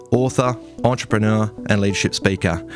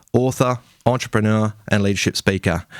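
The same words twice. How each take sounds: The two takes are said the same way.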